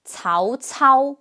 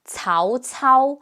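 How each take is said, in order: Both takes have the same delivery.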